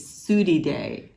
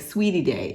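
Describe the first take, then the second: First: The first word sounds like 'sudie'. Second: The first word sounds like 'sweetie'. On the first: The speaker calls it right. "It's Sudie Day" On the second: The speaker calls it wrong. "some people were thinking we were saying Sweetie Day"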